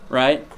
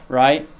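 Both takes have the same delivery.

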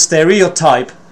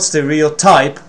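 First: The stress is on the first syllable. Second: The stress is on a later syllable. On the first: "the primary stress is on the first syllable" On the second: "It's not stereotype"

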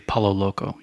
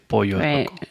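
First: The double L is sounded like an English L. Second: The double L is sounded like an English Y. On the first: The speaker calls it wrong. "You don't say Palo Loco" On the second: The speaker calls it right. "You say Pollo Loco"

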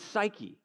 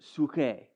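First: The word begins with a 'sigh' sound. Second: The word begins with a 'soo' sound. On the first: "But it's psyche" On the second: "I think they pronounce it in the Greek. It's like suke"

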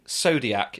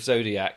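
First: The word begins with an s sound. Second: The word begins with a z sound. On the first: "you're saying Zodiac" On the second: "instead of Zodiac"

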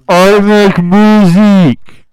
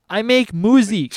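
First: It is said noticeably louder. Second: It is said at normal, quieter volume.

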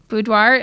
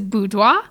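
First: It has a plain American Southern pronunciation. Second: It has a French-style pronunciation. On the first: This is the common local way to say it. "Here in Kentucky, it is very common for people just to say boudoir" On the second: This is the technically correct original way to say it. "it is a French word. ... the technical pronunciation is boudoir"

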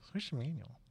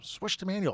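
First: It is said flatly, without enthusiasm. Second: It is said with lively, eager enthusiasm. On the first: The speaker is unsure about the name. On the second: The speaker loves the name.

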